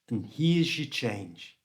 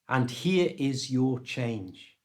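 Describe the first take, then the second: First: The words are reduced and run together quickly. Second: Every word is said fully and separately. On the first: "because he's using fast natural English" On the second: "What he's actually saying is"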